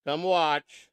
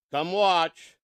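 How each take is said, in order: Both takes have the same delivery.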